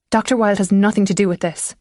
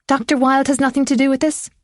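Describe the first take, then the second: First: Understated calm, firm reasoning; the calm voice of reason, lightly voiced; deep, calm voice. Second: High-pitched mocking echo; mocking his tone. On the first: Son reasoning with his angry mother, calm. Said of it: "His voice was deeper and calmer". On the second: Mother throwing her son's words back at him, mocking. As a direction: parrot it back higher, mockingly. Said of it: "mocking his tone". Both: A narrator's reading.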